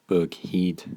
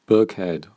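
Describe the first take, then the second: First: It is said in a Scottish accent. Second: It is said in a standard, non-Scottish accent.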